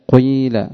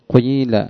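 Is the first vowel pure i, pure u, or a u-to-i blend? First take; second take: u-to-i blend; u-to-i blend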